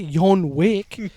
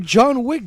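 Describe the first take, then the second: First: The name begins with a Y sound. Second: The name begins with a J sound. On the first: The speaker calls it wrong. "Don't say Yon Wick" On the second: The speaker calls it right. "then just say John Wick"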